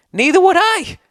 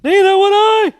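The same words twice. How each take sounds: First: Mock whiny high echo of the emailer, much higher; voice jumps up high. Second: Much higher and louder squealing mockery; mock high whine. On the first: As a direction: squeak the line up high, mocking. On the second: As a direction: redo it even higher, hamming up the mockery. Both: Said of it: "Why did my voice go up so high?".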